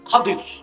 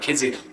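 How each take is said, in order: First: The name is said with a 'd' sound. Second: The name is said with a 'j' sound. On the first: This is the original form of the name. The speaker calls it right. "ওনার আসল নাম কি? ... শুদ্ধ উচ্চারণ কি?" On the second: This is the popular local form of the name. The speaker calls it wrong. "যাকে আপনারা এখন খিজির"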